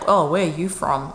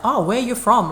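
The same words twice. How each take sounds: First: The question sounds judgmental and disapproving. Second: The question sounds friendly and genuinely curious.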